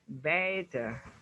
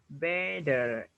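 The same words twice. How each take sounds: First: It is said in a British accent. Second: It is said in a non-British accent.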